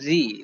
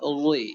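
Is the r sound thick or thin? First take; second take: thin; thick. First: The r is light and thin with spread lips. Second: The r is heavy and thick with rounded lips. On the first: The speaker calls it right. "এটা ওই নয়, এটার উচ্চারণ হবে রি" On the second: The speaker calls it wrong. "যদি মোটা করতাম তাহলে উচ্চারণ কেমন হতো?"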